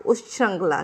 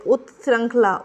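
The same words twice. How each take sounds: First: उत्श्रृंखला with a ch sound: ush-chhrankhla, lower and softer; second version. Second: उत्श्रृंखला with a t-s cluster: ut-srankhla; first version. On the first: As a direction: blend into chh in उत्श्रृंखला. (उत्श्रृंखला को "उश्छृंखला" जैसा बोलें) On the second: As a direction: sound a separate t in उत्श्रृंखला. (उत्श्रृंखला में "त्" अलग बोलें) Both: Shown as a demonstration. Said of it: "ठीक है".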